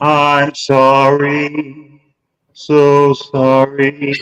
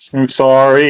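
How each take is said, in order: First: It is said with an echo effect. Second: It is said plainly, without an echo.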